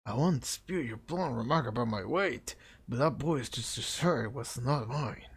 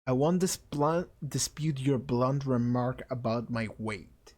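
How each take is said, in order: First: Sing-song, swooping haughty figure; put-on character voice. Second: Slow, even, measured character voice; same-voice retake. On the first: Fat classmate answers the insult, affected voice. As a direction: bounce the pitch through a stuffy voice. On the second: Acted. Fat classmate accepts the insult, slow and measured. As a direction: deliver it slowly and levelly. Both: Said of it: "He has the same voice".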